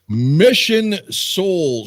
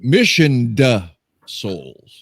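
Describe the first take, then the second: First: The first word ends without a final d sound. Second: The first word ends with a final d sound. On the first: The speaker calls it wrong. "not mission" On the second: The speaker calls it right. "Missioned Souls, not mission"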